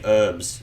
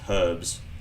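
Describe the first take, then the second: First: The word begins with a vowel, no h sound. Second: The word begins with a clear h sound. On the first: The speaker calls it wrong. "Why do I say herbs?" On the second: The speaker calls it right. "There's a H there for a reason"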